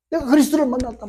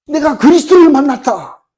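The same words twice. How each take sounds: First: Retold shout, held back. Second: Much higher, louder proclamation; excited shout. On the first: Preacher echoing the woman's news, held-back imitated shout. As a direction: repeat the cry high, without shouting. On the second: Retold or imitated. Woman telling villagers she met Christ, imitated excited shout. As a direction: cry it out to the whole village. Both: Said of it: "막 고함 질러요".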